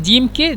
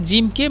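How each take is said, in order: No difference in how they are said.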